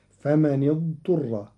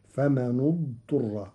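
First: فمن اضطر linked with kasra on nun, famanidturra; slow, join فمن to اضطر with kasra; standard reading. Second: فمن اضطر linked with damma on nun, famanudturra; slow, join فمن to اضطر with damma; Qalun reading. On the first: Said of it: "قرأ قالون كلمتي فمن اضطر". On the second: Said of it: "بضم النون لضم ثالث الفعل". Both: Shown as a demonstration.

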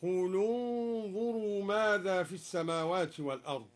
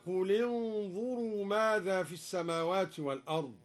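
First: قل انظروا joined with u, qulu-nzuru; damma on the lam. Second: Said in the usual way. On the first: Shown as a demonstration. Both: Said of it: "قرأ الدوري بضم أولى الساكنين".

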